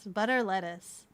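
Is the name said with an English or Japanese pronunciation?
English. It is said with an English pronunciation.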